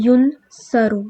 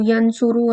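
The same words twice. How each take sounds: First: ینصرو said as yunsaru, u on first letter then a; ینصرو spoken yun-sa-ru, stressed; passive form. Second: ینصرو said as yansuru, plain active vowels; ینصرو with a and u, yan-su-ru; active form. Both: Shown as a demonstration. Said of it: "او آ کی sound ڈالتے تھے".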